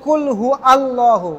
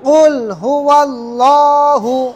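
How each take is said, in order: First: Allah starts separately with a glottal catch. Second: Huwa runs straight into Allah without a break. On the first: The speaker calls it wrong. "অনেকে বলে কুল হু আল্লাহ, তার পড়াটা ভুল হবে" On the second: The speaker calls it right. "এখানে হামজার উচ্চারণ করা যাবে না"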